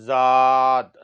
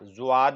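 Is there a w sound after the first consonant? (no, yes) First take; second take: no; yes. First: It is said without a w sound. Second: It is said with a w sound. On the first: The speaker calls it right. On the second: The speaker calls it wrong.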